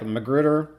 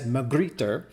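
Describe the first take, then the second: First: It is said with a plain English accent. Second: It is said with an attempted French accent. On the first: The speaker calls it wrong. "as long as you're not saying something like Magrittr" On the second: The speaker calls it right. "my bad accent is going to say it as Magrittr"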